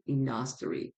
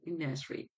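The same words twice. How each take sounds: First: The vowel spelled U sounds like 'uh'. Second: The vowel spelled U sounds like 'ih'. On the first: The speaker calls it wrong. "it's not industry" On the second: The speaker calls it right. "the way that we pronounce it is mostly like E"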